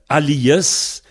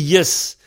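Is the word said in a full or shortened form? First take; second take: full; shortened. First: The word is said in full, with every syllable. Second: The word is cut down to one short syllable. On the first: Everyone can understand this form. The speaker calls it right. "il vaut mieux prononcer les mots de façon pleine" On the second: Speakers of the full form may not understand it. The speaker calls it wrong. "celui qui dit Yes"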